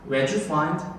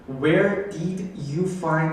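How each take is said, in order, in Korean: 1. 단어들이 이어지고 줄어들어서 발음돼요. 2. 각 단어를 완전하고 따로따로 발음해요. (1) "이렇게 흘려서 읽는단 말이에요" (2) "이렇게 친절하게 안 읽어주고"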